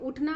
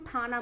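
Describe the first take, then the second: First: The word begins with its first vowel sound. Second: The first vowel is dropped from the word. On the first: This is the everyday standard form. "उठना मत हम लोग बोलते हैं" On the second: This is the Khari Boli dialect form. "खड़ी बोली में ... ठाना बोलेंगे, यानी कि स्वर का लोप हो जाता है"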